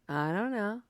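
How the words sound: It is said in a snarky, sarcastic tone. "Are you saying it in a snarky way?"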